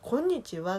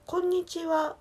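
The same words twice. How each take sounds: First: こんにちは with a Kansai pitch peak midway; Kansai intonation. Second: こんにちは high-pitched in standard Japanese tune; standard Japanese intonation. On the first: Showing viewers the Kansai greeting, pitch jumping up then falling. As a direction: say こんにちは in Kansai dialect tune. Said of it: "多分関西". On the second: Showing viewers the standard Japanese greeting, raised pitch held through. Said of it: "標準語やったら". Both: Shown as a demonstration.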